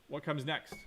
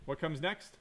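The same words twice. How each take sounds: The two takes are said the same way.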